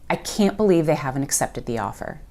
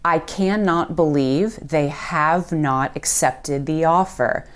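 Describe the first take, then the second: First: The negatives are squished into contractions. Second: The negatives are said in full, uncontracted.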